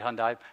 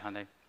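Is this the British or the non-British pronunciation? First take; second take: British; non-British. First: The name is said the British way. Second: The name is said the non-British way. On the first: This is how British speakers say the name. "They said Hyundai. They're British" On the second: This is how the speaker says the name. "I say Hyundai"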